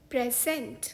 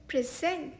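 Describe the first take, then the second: First: present as PREZ-ent, stress on the first syllable; noun pronunciation. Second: present as pri-ZENT, stress on the second syllable; verb pronunciation. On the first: Teacher showing the word for gift, present as PREZ-ent. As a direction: hit "prez" at the front of present. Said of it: "इस शब्द का एक उच्चारण है". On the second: Teacher showing the word for offering, present as pri-ZENT. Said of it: "इस शब्द का दूसरा प्रोनाउंसिएशन है". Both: Shown as a demonstration.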